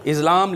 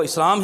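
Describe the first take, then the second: First: इस्लाम with a voiced z, "Iz-laam"; dictionary pronunciation. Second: इस्लाम with a voiceless s, "Is-laam"; correct Urdu pronunciation. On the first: Teacher cites the dictionary to students, इस्लाम said with a z. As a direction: buzz the s of इस्लाम into a z. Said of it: "इसकी pronunciation dictionaries में". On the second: Teacher corrects the dictionary for students, इस्लाम said with an s. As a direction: keep a clean hissed s in इस्लाम. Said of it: "इसका तलफ़ुज़ जो है वो इस्लाम ही है". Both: Shown as a demonstration.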